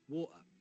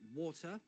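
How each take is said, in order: First: The middle T is a glottal stop. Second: The middle T is clearly pronounced. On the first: The speaker calls it wrong. "Try not to use glottal T's" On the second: The speaker calls it right. "good full articulation of consonants, especially T's"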